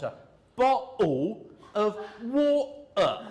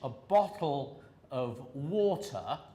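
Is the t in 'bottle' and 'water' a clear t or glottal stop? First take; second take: glottal stop; clear t. First: The t sounds are replaced by glottal stops. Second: The t sounds are clearly pronounced. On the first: "they're making glottal stops" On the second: "in the Queen's English, or posh English"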